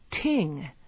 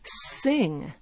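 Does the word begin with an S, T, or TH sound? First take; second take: T; S. First: The word begins with a T sound. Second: The word begins with an S sound. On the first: "Other people might pronounce it as ting" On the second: "a French speaker might pronounce it as sing"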